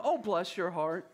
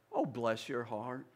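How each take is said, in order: First: Said in the usual way. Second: Slow, syrupy Southern "Oh, bless your heart" with a rising "Oh". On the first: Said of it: "you know". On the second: Retold or imitated. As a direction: drawl it out like a sweet Southern lady hiding a jab. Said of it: "In the South, they say".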